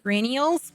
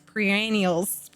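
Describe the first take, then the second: First: Rennials with pe dropped; stumbling pronunciation. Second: Perennials said slowly and fully; careful pronunciation. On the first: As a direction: trip over rennials. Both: Real, not acted. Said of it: "I can't say words".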